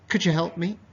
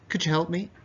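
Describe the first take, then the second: Both takes have the same delivery.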